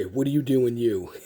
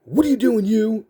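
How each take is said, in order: First: Said in the usual way. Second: Higher-pitched imitation of a drill sergeant; drill sergeant catchphrase. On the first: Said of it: "he'd always say". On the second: Drill sergeant to the recruit who bumped him, high-pitched challenge. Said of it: "that's something he'd always say".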